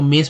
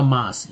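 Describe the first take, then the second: First: "मेस" with a long English 'ay' vowel; wrong pronunciation. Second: "मास" with an open 'aa' vowel; correct pronunciation. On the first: Teacher showing students the mistaken reading, mispronounced "मेस". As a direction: say "मेस", reading the A by its letter name. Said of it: "जो कि गलत उच्चारण है". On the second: Teacher correcting the reading for students, correctly pronounced "मास". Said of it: "उच्चारण होगा मास". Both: Shown as a demonstration.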